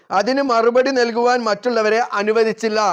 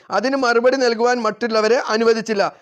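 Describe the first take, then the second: Both takes have the same delivery.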